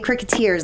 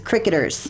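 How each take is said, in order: First: The stress is on the last syllable. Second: The stress is on the first syllable. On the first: The speaker calls it wrong. "You say Cricketers, like Mouseketeers. It's not" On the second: The speaker calls it right. "It's Cricketers"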